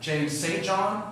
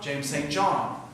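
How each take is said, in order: First: The stress is on Saint. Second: The stress is on John.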